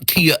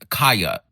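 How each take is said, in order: First: The first syllable sounds like 'key'. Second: The first syllable sounds like 'kye'. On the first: The speaker calls it wrong. "y'all have been pronouncing it the Kia Asylum, like a Kia car" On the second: The speaker calls it right. "her name is Kaya"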